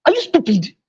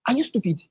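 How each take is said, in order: First: Higher-pitched, cutting question; demonstrated offended-making jab, pitched up. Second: Soft, mild question; gentle correction. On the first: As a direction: throw it as an insult. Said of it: "the person will get offended". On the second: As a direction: ask it quietly, without giving offence. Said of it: "say that same statement in another way". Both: Shown as a demonstration.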